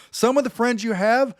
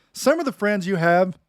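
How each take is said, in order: First: "Some of the friends you have" lifted higher for weight; emphatic repeat. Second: Said in the usual way. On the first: Shown as a demonstration. Preacher repeating the line to grab the room, pitched up for emphasis. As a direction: repeat it pitched up to make them listen. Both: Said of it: "listen to me, guys".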